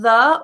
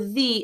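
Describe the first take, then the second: First: The vowel is a short, weak 'uh'. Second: The vowel is a full, long 'ee'. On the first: "do you pronounce the as schwa" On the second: "or the in front of vowel sounds"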